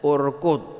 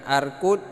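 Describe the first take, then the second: First: The word begins with a u vowel. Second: The word begins with an a vowel. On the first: The speaker calls it right. "Jadi kita bacanya urkud" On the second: The speaker calls it wrong. "ini bukan arkud"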